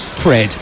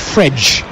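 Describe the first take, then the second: First: The name ends with a plain d sound. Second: The name ends with a soft j-like sound. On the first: "F R E D spells Fred in England" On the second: "the correct pronunciation of his name is Fredge"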